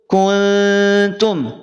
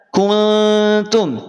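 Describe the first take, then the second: The two takes are said the same way.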